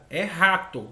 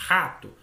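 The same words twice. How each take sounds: First: "rato" with a clear strong initial r; mother models "rato", r sounded fully; plain correcting tone, full r in "rato"; correct pronunciation. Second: "Rato" said as "ato", r dropped; child repeats "Rato" without the initial r; lightly voiced child saying "ato"; child's mispronunciation. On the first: Retold or imitated. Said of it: "a mãe fala assim". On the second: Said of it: "a criança repete".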